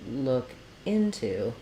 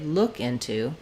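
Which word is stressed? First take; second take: into; look. First: The stress falls on the word into. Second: The stress falls on the word look. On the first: The speaker calls it right. "I said look into. So the preposition is stressed" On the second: The speaker calls it wrong. "rather than stressing on look, I didn't say look into"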